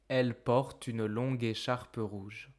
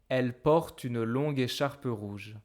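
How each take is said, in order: First: The words are merged together into one flow. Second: The same.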